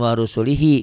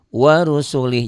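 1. Kata itu diakhiri dengan vokal akhir yang dipanjangkan. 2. Kata itu diakhiri tanpa vokal akhir yang dipanjangkan. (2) "bukan enggak dibaca tapi enggak dipanjangin ya"

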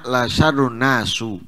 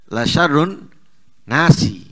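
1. Kata terakhir berakhir dengan vokal 'u'. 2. Kata terakhir berakhir dengan vokal 'i'. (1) "Ia membacanya la syarrun nasu"

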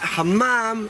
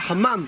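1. צליל ה-m נשמע ארוך, כפול. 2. צליל ה-m קצר, יחיד. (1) "אל תגידו חמם, מה שנקרא מם עם שדה כזאת" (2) "אלא חמם, המם הזאת זה רבים"

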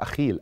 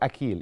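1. الحرف الأوسط صوت kh خشن. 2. الحرف الأوسط صوت k قوي. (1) "حسب ما بتنطق بالعربيه" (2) "هي تنطق بحرف الكي"

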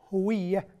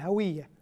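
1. الحركة الأولى هي صوت 'u' مدوّر. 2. الحركة الأولى هي صوت 'a' مفتوح. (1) "الصواب هوية بالضم" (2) "ينطقونها بالفتح"

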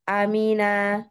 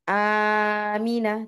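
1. Bunyinya disambung dengan lancar tanpa dipanjang-panjangkan. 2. Bunyinya dipanjang-panjangkan dan ditarik panjang. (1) "Jadi Amina, Suila, seperti itu ya" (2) "jangan pula dipanjang-panjangkan ya. Jangan, jadi tidak di Amina, tidak gitu"

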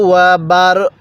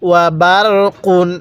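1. শেষ শব্দটি হঠাৎ করে একটি খালি ব্যঞ্জনে শেষ হয়। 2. শেষ শব্দটি একটি যোগ করা -un ধ্বনি দিয়ে শেষ হয়। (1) "যদি ওয়াকফ করি তাহলে ওয়াকফের সময় কফের উপর দুই পেশকে বাদ দিয়ে দিব" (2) "আর যদি ওয়াকফ না করি তাহলে মিলাই পড়ব, ওয়া বার কুন এরকমভাবে শিখব"

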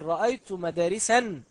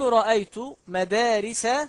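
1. تنتهي الكلمة الأخيرة بنون زائدة. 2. تنتهي الكلمة الأخيرة بدون نون أخيرة. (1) "ولا تقل رأيت مدارسا" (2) "أقول رأيت مدارس كثيرة"

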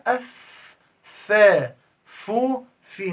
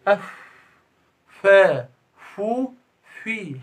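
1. الشفة السفلى على الأسنان العليا. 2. الفاء مجرد هواء بين الشفتين. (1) "لكن احنا" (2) "هوا بس، ده خطأ"

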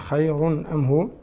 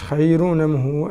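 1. همزة القطع تفصل بين الكلمتين. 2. النون (n) تتصل مباشرة بالصوت الذي بعدها. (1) "أما الإمام قالون" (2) "هذه رواية الإمام ورش"

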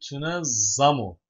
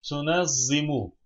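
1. Son heceden önceki ünlü 'a'dır. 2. Son heceden önceki ünlü 'i'dir. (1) "Meçhul fiil burası" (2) "Ben tünezzimu dedim sanki"

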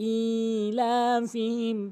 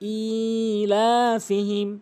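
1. হামজার পরের স্বরবর্ণটি টেনে পড়তে হয়। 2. হামজার পরের স্বরবর্ণটি টেনে পড়তে হয়।

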